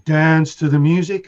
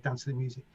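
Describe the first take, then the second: First: Louder, slow chanted vocal hook; sung, imitating the vocal. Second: Said in the usual way. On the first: Recalling the track playing in the club, chanted loud and slow. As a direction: chant it like the record's vocal sample. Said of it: "It's just going". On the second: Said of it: "that was the name of the record".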